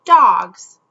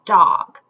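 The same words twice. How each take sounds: First: "Dogs." said as one syllable, louder, the s tacked on; syllable demo. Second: "Dog." said as one clear syllable, jaw dropping once; syllable demo. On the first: Teacher shows kids that "Dogs." stays one syllable, a firm louder word. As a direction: say "Dogs." so the chin still drops once. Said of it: "Let's feel when we say dogs". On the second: Teacher shows kids how "Dog." feels, one deliberate syllable. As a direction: say "Dog." slowly so the chin drops once. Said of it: "Hand under chin to feel". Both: Shown as a demonstration.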